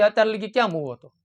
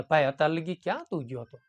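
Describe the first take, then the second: First: A touch of a gruff father snapping at his late son; mildly scold, rough and blunt; mock harsh scolding. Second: Softer and lower, a kind father asking; gentle asking. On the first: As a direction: parent mildly scolding a son home at midnight. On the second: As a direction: ask gently, no blame. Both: Shown as a demonstration. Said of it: "તો કેટલો તફાવત થાય".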